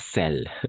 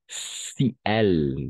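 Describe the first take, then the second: First: The i vowel is dropped, merging into one syllable. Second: The i vowel is kept before the second word. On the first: The speaker calls it wrong. "pas celle, d'accord? Ça n'existe pas" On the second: The speaker calls it right. "Si elle, d'accord?"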